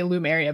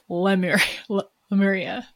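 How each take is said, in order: First: The name is said as Loo-meria. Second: The name is said as Leh-muria. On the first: The speaker calls it wrong. "I always say Lumeria" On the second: The speaker calls it right. "but it's Lemuria"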